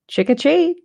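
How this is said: It sounds like a casual adult voice.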